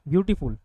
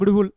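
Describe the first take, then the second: First: The word has a small break between syllables. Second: The word is run together in one go. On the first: The speaker calls it right. "रुकते हो" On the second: The speaker calls it wrong. "एक बार में beautiful ऐसे नहीं बोलते"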